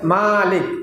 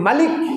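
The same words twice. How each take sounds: First: The first vowel is drawn out long. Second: The first vowel is kept short. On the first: It means owner or possessor. "মা যদি টান দিয়ে বলা হয়" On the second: It means king or sovereign. "আর যদি মালিক বলা হয়"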